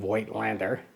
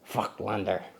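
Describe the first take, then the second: First: The name is said with an English pronunciation. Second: The name is said with a German pronunciation. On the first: "we anglicize that by saying Voigtlander" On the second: "in German, um, I do believe it's pronounced something more like Vogtlander"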